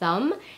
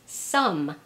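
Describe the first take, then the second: First: The word begins with a soft th sound. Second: The word begins with an s sound. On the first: "the sound, as in the word thumb" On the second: "or sometimes as an S"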